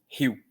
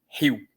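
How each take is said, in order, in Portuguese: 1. O I e a vogal final se juntam em uma só sílaba. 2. O I e a vogal final se juntam em uma só sílaba.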